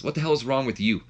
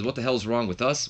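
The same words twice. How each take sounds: First: "you" turned back with a falling end; higher retort, landing on "you"; stress on YOU. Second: "us" thrown back with a rising question; stress on US. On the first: Trish steps up to confront him, stressing "you". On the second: Trish steps up to answer back, stressing "us". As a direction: lean on "us", turning it into an echo. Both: Retold or imitated.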